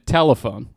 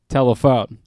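First: The stress is on the first syllable. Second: The stress is on the last syllable. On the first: The speaker calls it wrong. "Which is apparently wrong" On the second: The speaker calls it right. "You're supposed to hit the phone more?"

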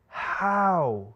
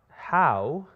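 First: It is said as an anguished, despairing cry. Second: It is said plainly, without strong emotion. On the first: It expresses shock, confusion and despair all at once. The speaker calls it right. "It's more like, ah, how. And that ah is just like that scream" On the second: It is a simple question. The speaker calls it wrong. "It's not how"

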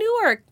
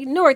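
First: It is said in two syllables, like New-ark. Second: It is squeezed into one syllable, rhyming with fork. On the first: The speaker is from outside the city. "Nope, that wasn't what I said" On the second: The speaker is from the city. "We say it like fork with an N"

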